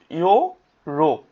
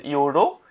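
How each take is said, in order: First: ইয়োরো slowly split as ইয়ো, রো; syllable by syllable. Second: Said in the usual way. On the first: Shown as a demonstration. Teacher spelling out a word's kana, syllable by syllable. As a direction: hold each half of ইয়োরো with a gap between. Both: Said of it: "ইয়ো আছে, রো আছে".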